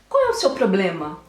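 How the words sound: It is said in a calm, measured tone.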